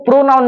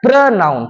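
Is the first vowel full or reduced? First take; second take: full; reduced. First: The first vowel is a full 'o' sound. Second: The first vowel is short and reduced. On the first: The speaker calls it wrong. "इसको प्रोनाउन नहीं बोलते" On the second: The speaker calls it right. "क्या बोला जाता है, प्रनाउन"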